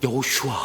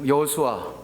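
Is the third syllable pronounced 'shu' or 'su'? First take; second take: shu; su. First: The third syllable is said with a 'sh' sound. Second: The third syllable is said with a plain 's'.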